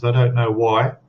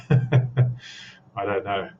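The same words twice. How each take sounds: First: Said in the usual way. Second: Very slow, drawn-out words. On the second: Shown as a demonstration. Streamer tests speaking slower for lagging stream, very slow. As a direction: stretch each word out slowly. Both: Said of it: "maybe I should speak slower".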